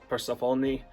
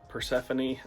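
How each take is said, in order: First: The name has the Greek dialect pronunciation. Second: The name has the usual English pronunciation. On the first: "I say Persephone" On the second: "instead of saying Persephone"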